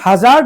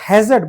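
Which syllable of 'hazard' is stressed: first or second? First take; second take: second; first. First: The stress is on the second syllable. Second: The stress is on the first syllable. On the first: The speaker calls it wrong. "इसको हम hazard नहीं बोलते हैं" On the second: The speaker calls it right. "इसके first syllable पे stress दिया जाएगा"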